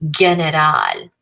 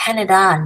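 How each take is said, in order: First: "general" said slowly with a hard g at the start; slow "general" with a hard English g, the mistake; the wrong version a learner might say; wrong hard g sound. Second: The teacher models it right; correct Spanish pronunciation. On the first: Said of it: "it's general, not general". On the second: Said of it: "not general". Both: Shown as a demonstration.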